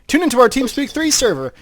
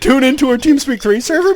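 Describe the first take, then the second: First: It ends with a falling, telling tune. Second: It ends with a rising, questioning tune.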